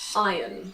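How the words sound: It is said in a British accent. "In British English we say iron"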